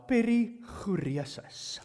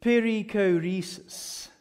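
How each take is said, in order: First: Perichoresis with an Afrikaans rolled r and a throaty ch, slow; Afrikaans accent. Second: Perichoresis said the English way, peri-ko-REE-sis with a hard k, slow; English pronunciation. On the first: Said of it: "with Afrikaans accent now". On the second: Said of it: "if you wanna say it in English". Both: Shown as a demonstration.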